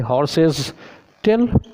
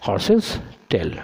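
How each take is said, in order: First: Wrong version with tail rising; wrong form, horses with s. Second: Plain correct version; teacher giving the right form, said plainly; correct form, horses' tail. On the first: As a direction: stress on tail. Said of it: "ऐसे करेंगे हम लोग गलत हो जाएंगे". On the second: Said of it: "अब सिर्फ apostrophe comma दे दो". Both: Shown as a demonstration.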